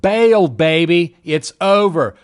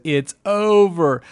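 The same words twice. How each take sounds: First: Louder, slow, drawn-out alarm call; slow loud warning to get out now; urgent warning. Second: Slow, altered voice of a beaten investor; mock despair of a panicked seller; defeated mock voice. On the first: Retold or imitated. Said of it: "My technicals said right here". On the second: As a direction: let it sag out as if giving up. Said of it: "when everyone says".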